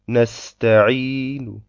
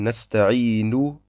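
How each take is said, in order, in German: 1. Der Endvokal wird leise und schwach gesprochen. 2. Der Endvokal wird voll ausgesprochen. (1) "wenn wir mit Ar-Raum stehen bleiben ... Die Dhamma ist also leiser" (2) "Beim Weiterlesen würden wir sagen"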